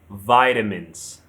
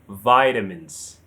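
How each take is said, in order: First: American pronunciation, stressed on the first syllable. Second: The same.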